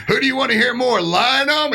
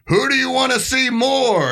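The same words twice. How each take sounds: First: Mock MC. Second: High slow announcer call to the crowd; mock MC. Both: Organizer polling the crowd on the mic, high announcer voice. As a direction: ask the crowd like a hype man. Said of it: "I hear him go".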